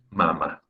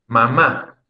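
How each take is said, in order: First: First MA strong in mamá, second one weak; stress on first syllable. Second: Mamá, leaning on the second MÁ; stress on last syllable. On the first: Teacher contrasting word pairs, mamá stressed on the first syllable. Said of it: "En el caso de mama". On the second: Teacher giving an example, mamá stressed on the last syllable. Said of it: "Es en la última sílaba". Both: Shown as a demonstration.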